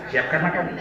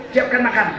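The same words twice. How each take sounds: First: Much lower and softer; wife quietly giving in; meek echo. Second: Said in the usual way. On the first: Retold or imitated. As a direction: murmur it back submissively. Wife quietly echoes order. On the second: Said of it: "suaminya bilang".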